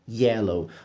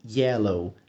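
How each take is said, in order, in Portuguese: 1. Começa com um som suave e sutil, parecido com J. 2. Começa com um som suave e sutil, parecido com J.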